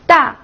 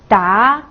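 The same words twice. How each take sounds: First: The pitch falls sharply from high to low. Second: The pitch rises from middle to high.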